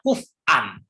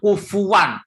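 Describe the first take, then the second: First: The middle has a glottal stop, no w sound. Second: The middle has a w sound, no glottal stop.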